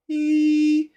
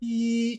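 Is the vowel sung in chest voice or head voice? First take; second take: head voice; chest voice. First: The vowel is made in a thin head voice. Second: The vowel is made in a full chest voice. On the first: "head voice" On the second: "chest voice"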